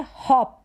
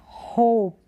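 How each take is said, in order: First: हॉप said "hawp"; हॉप with a dropped-jaw vowel; open short o. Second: होप drawn out as "hohp"; होप with a rounded long vowel. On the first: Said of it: "ये है हॉप". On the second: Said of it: "अगर हम पढ़ते हैं होप". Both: Shown as a demonstration.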